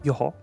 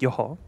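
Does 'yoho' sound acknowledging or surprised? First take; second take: acknowledging; acknowledging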